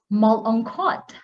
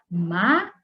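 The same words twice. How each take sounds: First: Malungkot misread the English way, syllables split wrongly; wrong pronunciation. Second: Malungkot as ma-lung-kot, with ng as one sound; correct Filipino pronunciation. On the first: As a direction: mimic a learner who misreads malungkot. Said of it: "Some would pronounce it as". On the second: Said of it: "if you understand the syllabication". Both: Shown as a demonstration.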